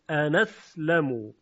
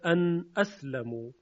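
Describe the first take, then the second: First: The glottal stop is dropped; its vowel joins the nasal. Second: The glottal stop after the nasal is clearly pronounced. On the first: This is the Warsh reading, which moves the vowel. "نقل حرکت صورت میگیره از همزه به نون" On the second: This is the reading of the other recitation traditions. "در سایر قرائات و روایات خونده میشه ان اسلمو"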